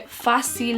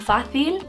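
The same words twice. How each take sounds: First: The middle consonant is a plain s sound. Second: The middle consonant is a lisped th sound. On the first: "instead of saying si" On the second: "they say th, so fácil would become fácil"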